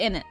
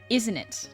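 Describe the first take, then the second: First: It is said quickly, squeezed into 'in it'. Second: It is said slowly with every sound clear. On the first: "you say it faster and casually" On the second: "I'll say it slower in case y'all don't hear it"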